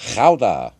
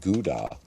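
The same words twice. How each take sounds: First: It is said with a Dutch pronunciation. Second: It is said with an American pronunciation.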